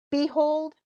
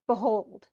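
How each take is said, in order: First: "behold" as BEE-hold, first syllable higher; stress on first syllable. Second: "behold" as buh-HOLD; light first syllable of "behold", weight on HOLD; stress on second syllable. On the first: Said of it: "which one has the most stress?". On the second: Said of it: "so you can hear that". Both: Shown as a demonstration.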